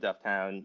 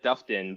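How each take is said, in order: First: The second syllable sounds like "town". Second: The second syllable is a reduced "ton". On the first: "if you're from Dufftown" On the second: "if you're from Dufftown, you might even call it Dufton"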